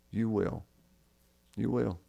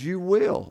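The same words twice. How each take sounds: First: Soft, hushed "You will" said twice; hushed promise. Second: Emphatic promise. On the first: Preacher echoing Jesus' words to the dying thief, hushed. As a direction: let the promise settle gently, almost under the breath. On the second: Jesus promising the thief, pitched up. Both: Acted.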